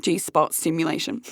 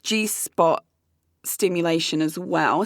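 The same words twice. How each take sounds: First: "G-spot stimulation" slurred like a tipsy tongue, lower and softer; mock drunk slur. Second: Said in the usual way. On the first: Shown as a demonstration. Daring listeners to say it drunk, lightly slurred. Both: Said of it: "Say that when you're drunk".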